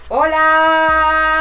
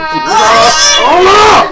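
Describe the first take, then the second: First: It is said flatly, with little energy. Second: It is said with lively, excited energy.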